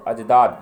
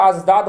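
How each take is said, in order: First: अजदाद with a j sound from jeem; pronounced with jeem. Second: अजदाद said as azdad, z replacing j; pronounced with z. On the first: Teacher drilling the plural for students, अजदाद with a jeem j. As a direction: say the j clearly in अजदाद. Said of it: "ये जीम से है". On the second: Teacher contrasting a look-alike word, अजदाद said with z. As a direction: put a buzzing z in अजदाद. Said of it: "उच्चारण या तलफ़ुज़ में फ़र्क है". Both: Shown as a demonstration.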